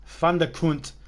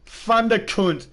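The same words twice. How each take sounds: First: Said in the usual way. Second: Loud, slow and high, relishing the name "Thunderkunt"; gleeful shout. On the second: Real, not acted.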